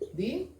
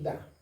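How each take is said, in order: First: The vowel sounds like 'ee'. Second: The vowel sounds like 'uh'. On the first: The next word starts with a vowel. "Como hay una vocal, di" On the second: The next word starts with a consonant. "es the, the car"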